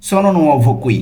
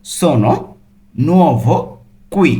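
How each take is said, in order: First: Said in the usual way. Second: Slow, word-by-word Italian; separated word by word with pauses. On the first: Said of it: "সেটা Italian ভাষা কিভাবে বলবেন". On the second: Shown as a demonstration. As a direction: break each word apart for learners. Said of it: "ভেঙে ভেঙে অর্থ সহ বলছি".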